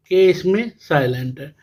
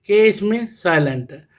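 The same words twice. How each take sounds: The two takes are said the same way.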